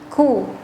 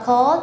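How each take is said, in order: First: The vowel sounds like a rounded u. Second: The vowel sounds like an open o. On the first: The speaker calls it right. "tapi ku" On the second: The speaker calls it wrong. "bukan ko"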